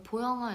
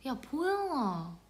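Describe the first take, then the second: First: Said in the usual way. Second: Jeolla dialect call. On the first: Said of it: "이렇게 안 하고". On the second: Retold or imitated. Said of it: "친한 언니가 전라도거든요".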